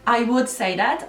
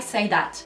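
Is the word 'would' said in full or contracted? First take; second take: full; contracted. First: The word 'would' is said in full. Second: The word 'would' is shortened to 'd. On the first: "I would say that normally" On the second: "Ama tabii kısaltılmış hali"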